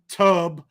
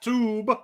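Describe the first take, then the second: First: The vowel is an English uh sound. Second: The vowel is a long oo sound. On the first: "It's also not tub like bathtub" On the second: "not tube because it's not long"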